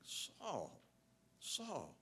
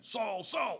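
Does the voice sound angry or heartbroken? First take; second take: heartbroken; angry. First: It is said in a sad, heartbroken voice. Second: It is said in an angry, threatening voice.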